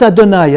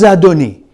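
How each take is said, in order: First: "Adonai" ending in an "eye" sound; "Adonai" with final "nigh", set against Adoni; Adonai pronunciation. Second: "Adoni" ending in an "ee" sound; "Adoni" with final "nee", set against Adonai; Adoni pronunciation. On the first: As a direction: say "Adonai" as ah-doh-NYE. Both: Shown as a demonstration. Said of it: "It's not Adonai at that point".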